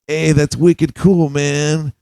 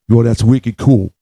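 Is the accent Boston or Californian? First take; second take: Californian; Boston. First: It is said in a Californian accent. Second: It is said in a Boston accent.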